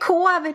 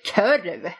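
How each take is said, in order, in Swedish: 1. Vokalen är ett bakrundat o-ljud. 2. Vokalen är ett framrundat ö-ljud. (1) "det heter korv, det har min mamma sagt" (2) "där de säger körv av någon outgrundlig anledning"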